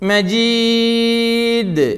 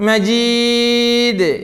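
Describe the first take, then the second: The two takes are said the same way.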